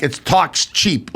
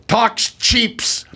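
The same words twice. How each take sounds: First: "talks cheap" slow, each word set apart; corrective line reading. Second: Put-on higher-pitched French-accented line; French actress adding an s to "cheaps". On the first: Retold or imitated. Brother coaching the actress again, slow correction. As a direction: slowly model "cheap" with no final s. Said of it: "my brother, "Cut, cut." He goes". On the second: Actress repeats her flubbed line, French accent. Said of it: "because of her French accent".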